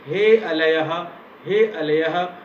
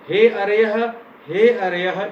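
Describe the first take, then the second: First: The word is said with an l sound. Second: The word is said with an r sound. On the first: The speaker calls it wrong. "ऐसा उच्चारण किया" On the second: The speaker calls it right. "इसके स्थान पर"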